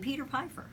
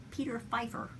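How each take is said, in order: First: "Pfeiffer" begun with a popped P; sounded P. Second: "Pfeiffer" begun with a plain F; silent P. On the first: Host listing candidates, "Pfeiffer" mispronounced with a hard P. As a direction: say "Pfeiffer" as "Piffer" with a long i, "Piefer". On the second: Host correcting a candidate's name, "Pfeiffer" starting on F. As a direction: say "Pfeiffer" as "Fifer", P dropped. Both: Shown as a demonstration. Repeats surname, changing first sound.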